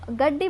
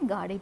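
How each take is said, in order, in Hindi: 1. बीच का व्यंजन दोहरा है और स्वर छोटा है। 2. बीच का व्यंजन इकहरा है और स्वर लंबा है। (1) "पश्चिमी हिंदी में गड्डी बोलती हैं" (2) "शिष्ट हिंदी में गाड़ी बोलते हैं"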